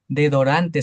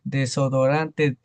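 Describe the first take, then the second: First: The word is said with a syllable dropped. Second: The word is said with all its syllables.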